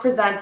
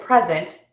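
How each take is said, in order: First: The stress is on the second syllable. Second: The stress is on the first syllable. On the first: It is a verb meaning to give formally. "in verbs, typically the second syllable is stressed" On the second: It is a noun meaning a gift. "in nouns, typically the first syllable is stressed"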